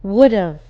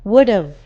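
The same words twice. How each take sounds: The two takes are said the same way.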